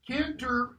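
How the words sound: It is said in a British accent, a syllable dropped. "British English"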